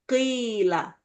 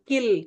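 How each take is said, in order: First: The first vowel is held long. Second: The first vowel is cut short. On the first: The speaker calls it right. "Ki-nya panjang dulu" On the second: The speaker calls it wrong. "Jangan kil"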